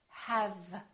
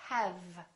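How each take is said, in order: Both takes have the same delivery.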